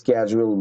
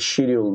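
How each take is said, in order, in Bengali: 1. শব্দটি sk ধ্বনি দিয়ে শুরু হয়। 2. শব্দটি sh ধ্বনি দিয়ে শুরু হয়। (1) "ইউএস এর মানুষরা এটাকে স্ক্যাজুয়াল বলে" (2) "ব্রিটিশের মানুষটা হচ্ছে হলো গিয়ে শিডিউল বলে"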